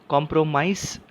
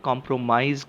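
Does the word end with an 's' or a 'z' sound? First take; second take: s; z. First: The final consonant is a hissing 's' sound. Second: The final consonant is a buzzing 'z' sound. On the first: The speaker calls it wrong. "कॉम्प्रोमाइज नहीं कह रहा हूं मैं" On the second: The speaker calls it right. "यहां पर भी एस की आवाज स न होते हुए ज है"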